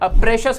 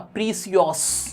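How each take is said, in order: First: The middle consonant is an 'sh' sound. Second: The middle consonant is an 's' sound. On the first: This is how the word is normally pronounced. "प्रेशियस word" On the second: Reading it as spelled helps remember the spelling. "प्रीसियस पढ़ लो"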